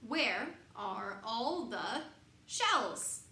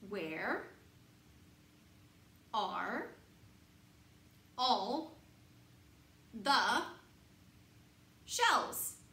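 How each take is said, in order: First: The sentence is read at a faster pace. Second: The sentence is read at a slower pace.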